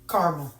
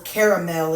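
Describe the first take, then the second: First: The word is said the plain, everyday way. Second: The word is said the fancy, refined way.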